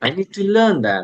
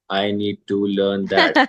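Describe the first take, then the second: First: The voice moves up and down with expression. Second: The voice stays flat like a robot. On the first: The speaker calls it right. "this is intonation" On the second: The speaker calls it wrong. "It has no intonation, right? You're speaking like a robot"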